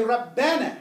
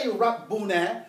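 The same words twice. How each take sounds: First: Rabbana with an "a" in the middle; calling-out form. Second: Rabbuna with an "oo" in the middle; wrong vowel, u. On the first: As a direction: say Rabbana as rab-BA-na, no "oo". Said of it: "We say Rabbana". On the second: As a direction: say Rabbuna as rab-BOO-na. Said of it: "We don't say Rabbuna". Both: Shown as a demonstration.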